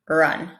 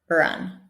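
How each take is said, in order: First: The R is weak, with relaxed lips. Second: The same.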